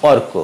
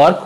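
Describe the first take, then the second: First: অর্ক with a final "o", "awr-ko"; two-syllable "awr-ko" for অর্ক; correct pronunciation. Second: অর্ক stopped on the k, "awrk"; wrong pronunciation. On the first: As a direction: finish অর্ক on a vowel. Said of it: "উচ্চারণ হবে". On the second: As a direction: drop the final vowel of অর্ক. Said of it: "অর্ক হবে না". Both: Shown as a demonstration.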